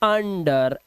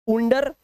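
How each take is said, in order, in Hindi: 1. पहला स्वर 'uh' जैसा बोला जाता है। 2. पहला स्वर 'oo' जैसा बोला जाता है।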